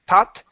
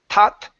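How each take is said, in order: First: It begins with a hard t sound. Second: It begins with a hard t sound.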